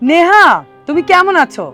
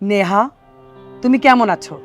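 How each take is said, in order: First: It is spoken in a high pitch register. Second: It is spoken in a middle pitch register. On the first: "তারপরেরটা বলেছি তারা থেকে" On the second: "পরেরটা বলেছি মুদারা থেকে"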